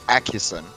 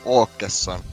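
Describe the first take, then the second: First: The name is said with English-style pronunciation. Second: The name is said with Swedish-style pronunciation. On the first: The speaker calls it wrong. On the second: The speaker calls it right.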